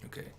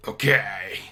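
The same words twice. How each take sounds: First: Said in the usual way. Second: Emphatic loud okay. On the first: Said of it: "okay said twice". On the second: Real, not acted. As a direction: punch out the okay.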